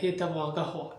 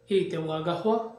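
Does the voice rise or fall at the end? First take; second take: fall; rise. First: It is said in a plain, falling statement tune. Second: It is said with a questioning, rising tune. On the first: It states that she wants coffee. "স্বাভাবিক সুরে বললেন" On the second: It asks whether she wants coffee. "যদি প্রশ্ন শুরু বলেন তাহলে হবে সে কি কফি চায়"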